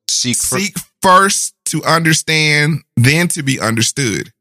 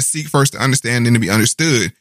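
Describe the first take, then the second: First: The phrase is spoken slowly and deliberately. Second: The phrase is spoken at a normal pace.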